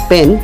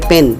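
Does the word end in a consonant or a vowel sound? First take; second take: consonant; consonant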